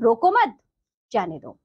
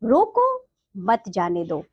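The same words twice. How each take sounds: First: There is a pause right after 'roko mat'. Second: There is a pause right after 'roko'. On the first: Do not stop them; let them go. "रोको मत के बाद यहाँ अल्प विराम लगा है" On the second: Stop them; do not let them go. "रोको के बाद एक अल्प विराम लगाया गया है"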